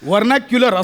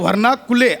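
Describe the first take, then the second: First: The word is said as 'vernacular'. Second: The word is split into 'varna kule'. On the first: The speaker calls it right. "असं आहे" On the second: The speaker calls it wrong. "असा नाहीये"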